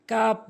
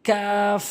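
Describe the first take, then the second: First: কাপ short, ending in a p; wrong pronunciation. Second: কাফ long, ending in f; correct pronunciation. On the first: Teacher showing learners the mistake, wrong কাপ. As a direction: say কাপ as plain Bengali kap. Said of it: "ভুল উচ্চারণ". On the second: Teacher modelling for learners, correct long কাফ. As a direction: draw out কাফ with a hissed final f. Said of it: "সঠিক উচ্চারণ হচ্ছে". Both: Shown as a demonstration.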